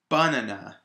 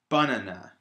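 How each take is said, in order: First: The stress is on the first syllable. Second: The stress is on the first syllable.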